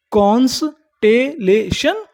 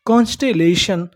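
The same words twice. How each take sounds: First: constellation in slow pieces, rising at the end; syllable by syllable. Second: Said in the usual way. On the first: Shown as a demonstration. Teacher prompting learners for the word, slow and rising. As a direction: split constellation slowly into कॉन्स-टे-ले-शन. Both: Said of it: "क्या बोलते हैं".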